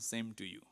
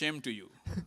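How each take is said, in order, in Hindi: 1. पहला शब्द s ध्वनि से शुरू होता है। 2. पहला शब्द sh ध्वनि से शुरू होता है। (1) "I had heard somebody say same to you" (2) ""sh" is pronounced as "sa" and "sa" is pronounced as "sh.""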